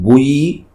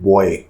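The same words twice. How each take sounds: First: The word is said the American way. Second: The word is said the British way. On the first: "Americans call it buoy" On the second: "Britishers and we Indians call it buoy"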